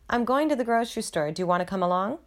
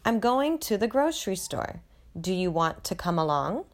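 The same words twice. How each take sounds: First: It is said at a fast speed. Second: It is said at a slow speed.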